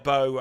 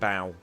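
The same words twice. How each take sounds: First: The vowel is as in a ribbon bow. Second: The vowel is as in bowing on stage. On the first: "Bow as in tie a bow around a present?" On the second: "Or bow as in you're taking a bow?"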